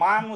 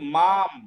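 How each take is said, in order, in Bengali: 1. শব্দটি 'ng' ধ্বনি দিয়ে শেষ হয়। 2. শব্দটি 'm' ধ্বনি দিয়ে শেষ হয়। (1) "মাং উচ্চারণ হবে না" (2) "এর উচ্চারণ হবে সাধি মাম"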